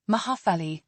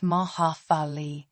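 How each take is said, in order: First: Said in the usual way. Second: "mahafali" sounded out as mah-hah-fah-lee; pronunciation demo. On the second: Shown as a demonstration. Teacher showing learners to make happy in Malagasy, careful syllable demo. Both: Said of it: "is pronounced".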